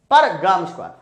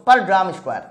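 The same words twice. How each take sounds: The two takes are said the same way.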